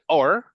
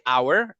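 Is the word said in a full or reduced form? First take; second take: reduced; full. First: It is said quickly as a short reduced sound. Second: It is said slowly and fully enunciated. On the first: "it's just like a quick version of hour" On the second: "the slow version and, and the most enunciated version is hour"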